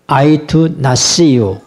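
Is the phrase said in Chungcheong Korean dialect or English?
English. It is said as an English sentence. I did not see you. "영어로"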